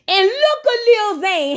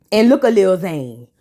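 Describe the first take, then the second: First: Higher and slower, drawn out; high mock-dramatic call. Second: Lower, dry, plain pace; low knowing call. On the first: Vlogger pointing at the squirming husband, high and slow. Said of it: "repeated catchphrase said high". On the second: Vlogger pointing at the husband again, low and deadpan. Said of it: "repeated catchphrase said low". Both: Shown as a demonstration.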